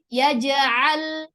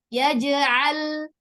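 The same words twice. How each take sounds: The two takes are said the same way.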